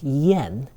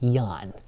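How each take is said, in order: First: The vowel sounds like e. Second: The vowel sounds like a. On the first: The speaker calls it right. "the A there is pronounced like an E vowel" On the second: The speaker calls it wrong. "not yan"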